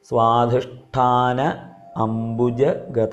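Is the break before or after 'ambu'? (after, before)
before. The pause comes before ambu, after svadhishthana. The speaker calls it right. "സ്വാധിഷ്ഠാന അംബുജഗത എന്നാണ്"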